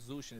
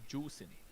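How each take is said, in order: First: The name starts with a z sound. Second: The name starts with a j sound. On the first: The speaker calls it wrong. "it's not Zushin" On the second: The speaker calls it right. "it's Juicin. That's how you say it"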